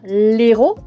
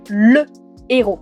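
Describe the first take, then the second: First: The article is shortened to a bare l sound. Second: The full article le is said before héros. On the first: The speaker calls it wrong. "On ne peut pas dire" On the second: The speaker calls it right. "on doit dire"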